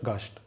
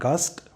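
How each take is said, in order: First: The st is said with an sh. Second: The st is said with a plain s. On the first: The speaker calls it right. "but gast" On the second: The speaker calls it wrong. "not gast"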